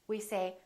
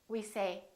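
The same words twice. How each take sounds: No difference in how they are said.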